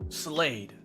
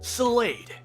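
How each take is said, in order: First: It is said in a deeper Robin voice. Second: It is said in a higher Robin voice.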